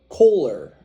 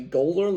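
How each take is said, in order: First: The name begins with a K sound. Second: The name begins with a G sound.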